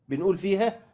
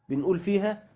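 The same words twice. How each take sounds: Both takes have the same delivery.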